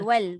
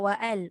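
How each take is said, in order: First: It is said as one linked syllable. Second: It is said as two separated parts. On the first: The speaker calls it right. "wal bukan wa al" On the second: The speaker calls it wrong. "bukan wa al"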